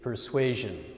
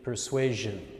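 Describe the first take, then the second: First: The middle consonant is a 'zh' sound. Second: The middle consonant is a 'zh' sound.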